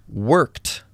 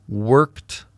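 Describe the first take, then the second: The two takes are said the same way.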